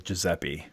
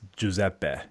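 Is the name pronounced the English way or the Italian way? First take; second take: English; Italian. First: The name is said with English-style pronunciation. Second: The name is said with Italian-style pronunciation. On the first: This is the everyday form the speaker has always used. The speaker calls it wrong. "I've been mispronouncing my own name my entire life" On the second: This is the original form in the name's home language. The speaker calls it right. "if you're being like technical and Italian about it"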